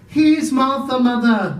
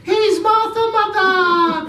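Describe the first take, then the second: First: Put-on higher, louder girl's voice; a young daughter calling out; cheerful girl. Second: Put-on much higher, louder child shout; small kids cheering; excited children. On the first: Martha announces herself.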